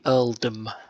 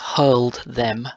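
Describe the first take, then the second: First: Said in a Cockney accent with the h dropped. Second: Said plainly with the h sounded.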